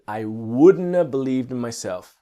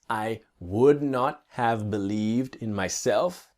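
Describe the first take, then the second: First: The T is dropped and 'have' becomes 'a'. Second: Every word, including 'have', is said in full.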